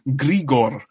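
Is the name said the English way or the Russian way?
Russian. The name is said with a Russian pronunciation. This is how the Russian characters say it. "all of the Russian characters in the film call him Grigor"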